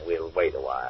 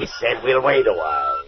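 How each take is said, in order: First: Low, soft and settled; low-voiced and unhurried; calm decision. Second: Insistent, cutting off the protest; firm insistence. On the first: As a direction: say it quietly, a decision made. First take, calm decision. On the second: Acted. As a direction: lean on it to shut down argument. Overrules the protesting doctor.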